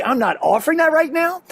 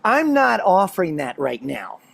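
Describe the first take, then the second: First: Higher, brisker quoted refusal; quoted parenting line. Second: Slow, measured, mild parental refusal; wife's firm refusal. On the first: Dad explaining the trick to parents, raised pitch. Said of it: "But if you say". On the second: Wife refusing her pestering son, slow and measured. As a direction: imitate a mother calmly shutting down a request. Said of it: "She looks right at him and goes". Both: Retold or imitated.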